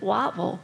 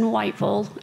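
First: The first syllable is flattened to sound like 'watt'. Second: The first syllable has the full 'white' vowel. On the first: "down there they pronounce it Wattville" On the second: "One was a solo practice in Whiteville"

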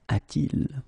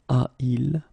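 First: A t sound links the two vowels. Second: The two vowels meet with no sound between. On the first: The speaker calls it right. "so it's a-t-il" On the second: The speaker calls it wrong. "but then it doesn't sound nice"

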